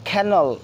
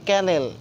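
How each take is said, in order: First: The first k sound has a puff of air. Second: The first k sound has no puff of air. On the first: The speaker calls it right. "এখন থেকে সেটা যে আমরা খ উচ্চারণ করে বলবো" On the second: The speaker calls it wrong. "আগে বলতাম আমরা"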